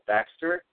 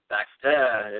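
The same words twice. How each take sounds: First: It is said with an English accent. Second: It is said with a French accent.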